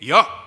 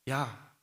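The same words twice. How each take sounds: First: It is said in a harsh, threatening voice. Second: It is said in a warm, friendly voice. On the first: The person is giving an intimidating command. "무섭게" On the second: The person is asking kindly for a favor. "친근한 목소리로"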